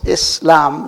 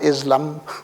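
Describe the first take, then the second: First: The middle consonant is a hissing s. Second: The middle consonant is a buzzing z. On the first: The speaker calls it right. "like the German two S's rather than one S" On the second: The speaker calls it wrong. "not Islam"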